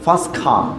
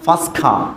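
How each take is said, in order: First: The t at the end of first is dropped. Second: The same.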